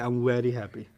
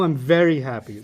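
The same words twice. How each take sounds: First: The word very begins with a W sound. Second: The word very begins with a V sound. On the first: "they pronounce the V as a W" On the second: "V, very happy"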